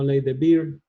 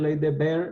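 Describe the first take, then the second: First: The name is pronounced a non-German way. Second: The name is pronounced the German way. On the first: The speaker calls it wrong. "no ley de Beer" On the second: The speaker calls it right. "se dice ley de Baird ... como es alemán se pronuncia Baird"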